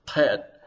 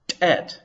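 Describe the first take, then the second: First: "pet" as if swallowing the back of the tongue; throaty, swallowed onset on "pet"; Arabic-style emphatic. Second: "tet" with a sharp, popped Ethiopic t; Ethiopic-style onset. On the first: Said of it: "as if you're swallowing the back of your tongue". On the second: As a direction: pop the t of "tet", higher and detached. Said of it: "if you use an Ethiopic Semitic sort of". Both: Shown as a demonstration.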